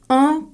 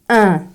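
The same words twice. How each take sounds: First: The nasal vowel is rounded, as in 'un'. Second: The nasal vowel is unrounded, as in 'in'. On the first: "on prononce un comme un" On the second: "Dans les autres régions françaises, on prononce un comme un"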